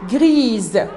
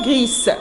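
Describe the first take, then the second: First: The final consonant is a voiced z sound. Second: The final consonant is a voiceless s sound. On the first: The speaker calls it right. "je dois prononcer le S Z" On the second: The speaker calls it wrong. "et non pas"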